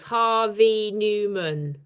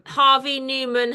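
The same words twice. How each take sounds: First: "Harvey Newman" slowly in four separate beats; syllable by syllable. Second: Said in the usual way. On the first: Shown as a demonstration. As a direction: count out "Harvey Newman" as Har-vey New-man. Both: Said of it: "has four syllables".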